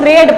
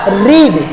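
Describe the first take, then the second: First: The vowel is short, like in 'bed'. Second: The vowel is long, like in 'seed'. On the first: The speaker calls it right. "इसको रेड पढ़ेंगे" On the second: The speaker calls it wrong. "Not a रीड"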